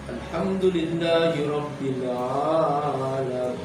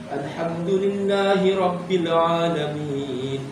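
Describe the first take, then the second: First: The long vowels are held far too long. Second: The long vowels are held for two beats. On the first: The speaker calls it wrong. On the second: The speaker calls it right.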